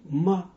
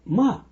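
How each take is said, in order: First: The word is said with a flat statement tone. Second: The word is said with a questioning rise. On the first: It names something. "not interrogative" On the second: It asks what something is. "This is one reading as an interrogative, with an interrogative intonation"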